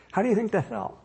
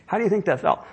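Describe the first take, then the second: First: Softer question. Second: Said in the usual way. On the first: Acted.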